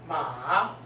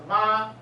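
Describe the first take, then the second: First: The pitch dips low, then rises. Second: The pitch stays high and level. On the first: "the third tone" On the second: "It's a high flat"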